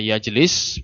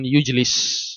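First: The first vowel is an 'a' sound. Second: The first vowel is a 'u' sound. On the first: The servant sits with the master while eating. "kalau misalnya yajlis dibaca yajlis" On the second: The master has the servant sit with him while eating. "Bisa juga dibaca dengan yujlis"

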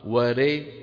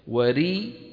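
First: The vowel after r leans toward an e sound. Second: The vowel after r is a full clear i. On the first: The speaker calls it wrong. "هذه إمالة وليست كسرة" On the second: The speaker calls it right. "وري هذه كسرة"

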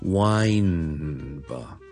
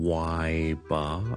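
First: The first word ends with a clear n sound. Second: The first word ends without an n sound. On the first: The speaker calls it right. "wine 一个n 喺度嘅" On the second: The speaker calls it wrong. "我唔可以就咁变成why bar"

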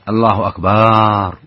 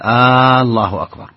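First: The vowel after the b is lengthened. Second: The opening vowel is lengthened like a question. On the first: It turns the word into one meaning drums. "أو مد الباء" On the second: It asks whether God is greatest. "هذه من استفهام، كأنه يسأل هل الله أكبر"

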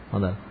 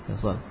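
No difference in how they are said.

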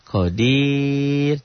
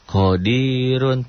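First: The r is light and thin. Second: The r is heavy and full. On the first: The reading stops on this word. "jadi tipis" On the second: The reading continues without stopping. "Ya tebel lah, karena roknya barisnya di atas"

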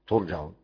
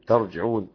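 First: The first vowel is u, then a. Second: The first vowel is a, then i. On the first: "يضم التاء ويفتح الجيم" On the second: "يفتح التاء ويكسر الجيم"

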